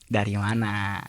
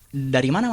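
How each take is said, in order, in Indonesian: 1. Terdengar seperti sudah tahu, seolah sudah menyadarinya. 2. Terdengar seperti pertanyaan biasa yang penasaran. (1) "kalau orang yang sudah tahu nih kejadiannya kayak apa" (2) "kalau orang bertanya"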